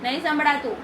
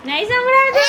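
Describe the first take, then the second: First: Said in the usual way. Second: Higher and louder, calling out; playfully loud, urging the child to shout back; teasing loud call. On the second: Shown as a demonstration. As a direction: call it out so he hears. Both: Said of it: "જોરથી બોલ તો સંભળાય".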